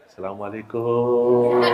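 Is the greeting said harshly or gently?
gently. It is said in a soft, gentle way.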